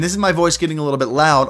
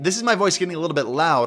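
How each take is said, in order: First: The voice has slightly more presence and clarity. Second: The voice has slightly less presence and clarity. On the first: "a little bit more presence and clarity out of the HyperX" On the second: "on the AverMedia A M three"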